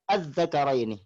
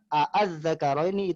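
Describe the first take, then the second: First: A single short a-sound opens the word. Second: Two separate a-sounds split by a glottal catch. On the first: "kita tidak meninggalkan hamzah itu. Artinya kita tidak baca" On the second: "itu bercampur kepada hamzah qata"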